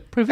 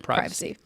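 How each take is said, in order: First: It is said in a British way. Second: It is said in a non-British way. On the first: "I'm not British. I don't say privacy" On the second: "I say privacy"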